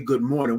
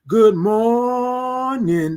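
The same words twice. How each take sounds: First: It is said plainly at normal length. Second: It is stretched out loudly with energy. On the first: "we don't just say good morning" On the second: "We say good morning like that"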